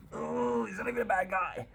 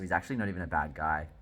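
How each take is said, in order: First: Very high, whiny mock lament; mock pitying wail. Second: Said in the usual way. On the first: Reader feeling for the count, high mock wail. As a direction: coo it way up high in mock sympathy.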